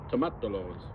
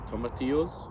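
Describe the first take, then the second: First: The double L is said as an L sound. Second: The double L is said as a Y sound. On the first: The speaker calls it wrong. "it's tomatolos" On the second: The speaker calls it right. "if it's double L, I think that's a, a Y"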